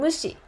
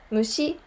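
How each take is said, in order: First: It has the pitch pattern of the verb 'ignore'. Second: It has the pitch pattern of the noun 'insect'. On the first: It means to ignore. "mushi is ignore" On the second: It means insect. "Mushi is insect"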